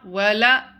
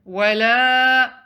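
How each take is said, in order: First: The la vowel is short. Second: The la vowel is held for two counts. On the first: The speaker calls it wrong. "It's not" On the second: The speaker calls it right. "Prolong the lam to two counts"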